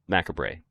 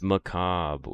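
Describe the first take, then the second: First: The word is sounded out literally, letter by letter. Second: The word is said in its usual pronunciation. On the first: The speaker calls it wrong. "I went very literal with that pronunciation" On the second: The speaker calls it right. "Oh, it's macabre"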